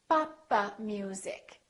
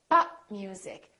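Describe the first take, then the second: First: An extra vowel is added after the p. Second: The p is held with no added vowel. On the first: The speaker calls it wrong. "extra syllable. ... It sounds almost like four syllables" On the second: The speaker calls it right. "Three syllables"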